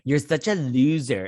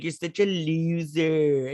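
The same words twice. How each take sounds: First: Said in the usual way. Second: Slow, drawn-out taunting put-on voice; slow sing-song sibling taunt; mocking bratty sister. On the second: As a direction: sneer it out like a mean teen sister. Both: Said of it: "And she even did, like".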